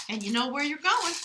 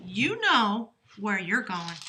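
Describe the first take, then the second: First: Said in the usual way. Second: Slow, louder, "know" leaned on, falling tune; slowed-down emphatic "you know where you're going"; stress on know. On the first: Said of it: "Sag, you know where you're going". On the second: Shown as a demonstration. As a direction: drive home "know" slowly.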